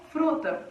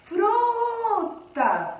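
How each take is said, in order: First: Said in the usual way. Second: "Fruta" with a high, long-held "Fru"; stress on FRU. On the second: Shown as a demonstration. Teacher showing galera the strong syllable, "Fru" held high. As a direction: stretch and lift the first syllable of "Fruta", then drop. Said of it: "foi a sílaba que eu falei mais forte".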